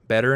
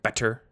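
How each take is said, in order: First: The middle consonant is a soft d sound. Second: The middle consonant is a crisp t sound. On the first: "But we just use D" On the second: "people in the U K tend to actually say t for T's? Like better?"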